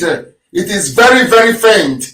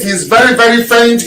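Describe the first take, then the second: First: "very, very faint" spelled out slowly, leaning on each "very"; slow down and weigh each "very" in "very faint"; slower, stressed repeat. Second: Said in the usual way. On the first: Shown as a demonstration. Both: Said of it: "We cannot proceed".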